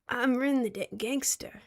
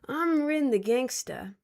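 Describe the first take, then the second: First: It is said hesitantly, without swagger. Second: It is said confidently, with swagger. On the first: The speaker calls it wrong. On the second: The speaker calls it right.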